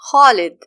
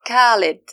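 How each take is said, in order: First: It begins with a raspy sound from the throat. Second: It begins with a hard k sound. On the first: The speaker calls it right. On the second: The speaker calls it wrong. "They mispronounce it as"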